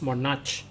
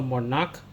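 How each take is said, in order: First: "monarch" with a CH as in church; mispronounced monarch. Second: "monarch" with a hard K ending; correctly pronounced monarch. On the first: Teacher warning pupils how not to pronounce it, "monarch" ending in a tch sound. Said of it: "this one is not pronounced as". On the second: Teacher showing pupils the right pronunciation, "monarch" ending in a k sound. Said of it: "not pronounced as monarch. So monarch". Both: Shown as a demonstration.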